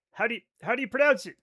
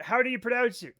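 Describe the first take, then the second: First: Fast and louder, pressing; rushed. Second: Said in the usual way. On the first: Shown as a demonstration. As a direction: fire the question off quickly.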